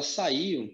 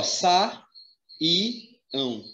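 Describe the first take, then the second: First: Said in the usual way. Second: "sa, i, ão" com pausa entre cada sílaba; separação silábica. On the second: Shown as a demonstration. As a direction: isole cada parte de "sa, i, ão" como num ditado. Professor separa saíam em sílabas. ("sa, i, ão" escandido, sílaba por sílaba)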